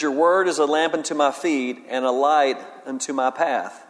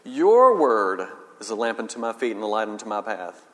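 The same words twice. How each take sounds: First: Said in the usual way. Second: Lower, each word weighed; prayerful reading with every word stressed; meditative reading. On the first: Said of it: "we would reflect and meditate on it like". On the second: Shown as a demonstration. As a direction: linger over every word of the verse. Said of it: "You emphasize every word".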